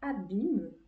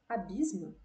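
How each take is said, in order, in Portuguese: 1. É dito sem som de S antes do M. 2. É dito com som de S antes do M.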